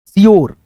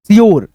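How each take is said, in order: Both takes have the same delivery.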